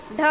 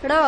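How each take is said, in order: First: Said in the usual way. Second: ड़ as an aspirated retroflex flap, ढ़; nukta flap sound. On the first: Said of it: "उस अक्षर का उच्चारण परिवर्तित होकर". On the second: Shown as a demonstration. Teacher showing ढ with nukta, ड़ flapped and aspirated. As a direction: flick the tongue with a puff for ड़. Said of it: "ढ को कर दे".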